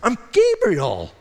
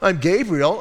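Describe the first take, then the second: First: It is said with indignant, emphatic surprise. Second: It is said in a plain, matter-of-fact way.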